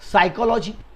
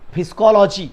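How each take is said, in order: First: The word begins with an 's' sound. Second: The word begins with a sounded 'p'.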